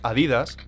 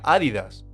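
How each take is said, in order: First: The stress is on the second syllable. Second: The stress is on the first syllable. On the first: The speaker calls it wrong. "nosotros decimos Adidas" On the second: The speaker calls it right. "se pronuncia Adidas, como si fuera esdrújula"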